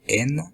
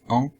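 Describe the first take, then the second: First: The vowel is followed by an n consonant. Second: The vowel is nasal with no n consonant. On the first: The speaker calls it wrong. "ils ont la tendance de dire" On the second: The speaker calls it right. "au lieu de"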